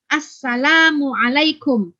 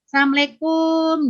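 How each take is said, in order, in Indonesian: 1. Ucapan Assalamualaikum diucapkan lengkap dan jelas. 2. Ucapan Assalamualaikum tidak jelas dan belepotan. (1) "sesuai dengan yang dicontohkan Rasulullah" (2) "salam yang nggak jelas gitu"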